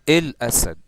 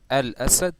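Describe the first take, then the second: First: The article sounds like 'el', Egyptian style. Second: The article sounds like 'al', standard style. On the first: "This is in the Egyptian accent" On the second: "instead of saying"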